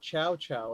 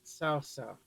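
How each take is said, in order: First: Each syllable begins with a "ch" sound. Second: Each syllable begins with a "ts" sound. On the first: The speaker calls it wrong. "not Chow Chow like the game made it sound like" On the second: The speaker calls it right. "T S makes sound for T S at the end of the word cats"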